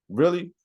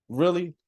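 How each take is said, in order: Both takes have the same delivery.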